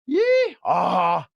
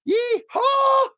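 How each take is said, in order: First: The yeehaw is lower in pitch. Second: The yeehaw is higher in pitch. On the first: It is a donkey braying. "That's the donkey" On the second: It is a rider's greeting. "That's the cowpoke"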